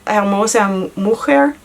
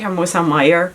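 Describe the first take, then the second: First: The second word sounds like 'moo-hair'. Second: The second word sounds like 'may-er'. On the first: The speaker calls it right. "it's supposed to be mujer" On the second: The speaker calls it wrong. "I said Hermosa Meyer"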